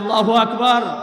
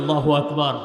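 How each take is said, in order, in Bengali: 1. বাক্যটি আরও জোরে বলা হয়েছে। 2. বাক্যটি জোরে বলা হয়েছে। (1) "আরও জোরে বলি" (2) "জোরে বলি"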